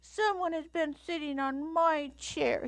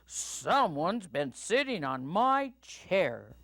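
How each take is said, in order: First: It is said in a babyish Little Bear voice. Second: It is said in a booming Papa Bear voice.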